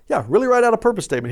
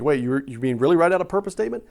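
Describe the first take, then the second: First: Quick, higher-pitched insistence with a falling end; emphatic confirmation. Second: Imagined listener double-checking, with a rising end; incredulous question. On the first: Shown as a demonstration. Preacher answering a doubting listener, emphatic confirmation. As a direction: confirm it briskly, leaning on "write". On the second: Acted. Congregant questioning the speaker's homework, incredulous. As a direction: ask it in disbelief, stumbling on "you".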